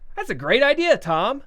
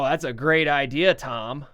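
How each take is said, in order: First: It is said in a sincere, genuinely approving tone. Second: It is said in a mocking, sarcastic tone. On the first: The speaker really likes the idea. "if you liked it, you would say" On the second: The speaker does not like the idea. "if you're being sarcastic because you didn't like it"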